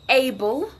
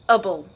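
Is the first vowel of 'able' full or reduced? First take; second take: full; reduced. First: The first vowel is a full 'ay' sound. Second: The first vowel is a weak, reduced sound.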